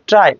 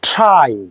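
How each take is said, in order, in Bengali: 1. প্রথম ব্যঞ্জনে বাতাসের কোনো ফুঁ নেই। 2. প্রথম ব্যঞ্জনে বাতাসের জোরালো ফুঁ আছে। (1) "নো" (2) "কারেক্ট প্রনাউন্সিয়েশন ইজ"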